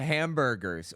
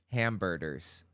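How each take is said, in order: First: The word is said in the ordinary way. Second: The word is said with a D sound.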